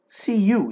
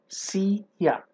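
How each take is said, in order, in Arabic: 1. الكلمة الثانية 'you' كاملة. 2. الكلمة الثانية مختصرة إلى 'ya'. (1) "اللي هي سي يو" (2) "بالامريكان احنا بنقولها سي يا"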